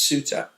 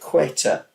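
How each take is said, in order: First: The name begins with an S sound. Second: The name begins with a K sound. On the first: The speaker calls it right. "It's actually pronounced Suta" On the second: The speaker calls it wrong. "I pronounced it Queta, but it's not"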